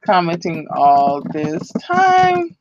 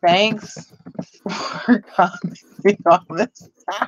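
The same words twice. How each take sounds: First: Each word drawn out, checking the spelling; careful, dictating pace; slow spell-check read. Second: Reading the typed words through a laugh; slow, amused read-back. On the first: Shown as a demonstration. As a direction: read it back slowly, word by word. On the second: Real, not acted. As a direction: giggle while reading the comment back. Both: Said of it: "now I'm spell checking myself".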